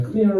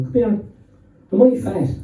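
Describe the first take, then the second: First: Higher, Limerick-style come here; a Limerick summons to the parents; Limerick fashion. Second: Higher Limerick-style come here, am I fat; Limerick-style plea to the parents; Limerick fashion. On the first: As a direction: call it out the Limerick way. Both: Retold or imitated. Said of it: "in a Limerick fashion".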